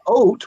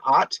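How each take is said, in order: First: The vowel is a rounded 'oh' sound. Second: The vowel is an open 'ah' sound. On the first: "or is it oat" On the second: "the O that makes the ah sound"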